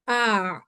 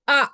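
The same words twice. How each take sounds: First: The sound continues smoothly without a break. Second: The sound is cut off abruptly. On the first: The speaker calls it right. "आवाज फौरन से टूटेगी नहीं" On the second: The speaker calls it wrong. "अगर मैं आवाज को तोड़ दूं यहाँ पे"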